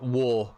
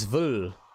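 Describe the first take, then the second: First: The syllable begins with a W sound. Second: The syllable begins with a V sound. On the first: The speaker calls it wrong. "It's not wo" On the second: The speaker calls it right. "it's vul"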